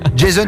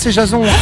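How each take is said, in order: First: The name is pronounced the English way. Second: The name is pronounced the French way. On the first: The name suits someone living in the United States. "t'habites dans le Minnesota, c'est crédible" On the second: The name suits someone living in rural France. "Dans le 63, c'est Jason"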